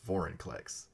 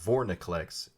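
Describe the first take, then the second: First: The I comes right after Vor, before the N. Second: The N comes right after Vor, before the I. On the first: The speaker calls it right. "it's Vorinclex" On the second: The speaker calls it wrong. "So it's not Vorniclex"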